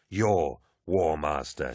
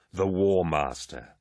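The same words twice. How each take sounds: First: Slow, leaning hard on "Your"; "Your" hit firmly, War Master falling; stress on Your. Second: Slow, leaning hard on "The"; stress on The. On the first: Torgadden shoves Eidolon, stressing "Your" slowly. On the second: Torgadden shoves Eidolon, stressing "The" slowly. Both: Acted.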